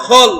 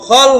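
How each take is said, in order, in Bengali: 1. 'kh' এর পরের স্বরধ্বনিটি একটি গোলাকার 'o'। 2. 'kh' এর পরের স্বরধ্বনিটি একটি গোলাকার 'o'।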